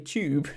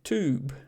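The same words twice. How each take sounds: First: The word is said in a British accent. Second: The word is said in an American accent. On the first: "but here you say tube" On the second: "in America they say tube"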